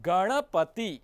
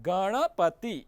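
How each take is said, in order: No difference in how they are said.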